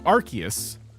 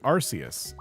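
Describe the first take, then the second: First: The first syllable does not sound like 'arse'. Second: The first syllable sounds like 'arse'. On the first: This avoids sounding like a rude word. The speaker calls it right. "now I've been deliberately saying Arceus" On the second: This could be heard as a rude word in some countries. The speaker calls it wrong. "I always pronounced it Arceus"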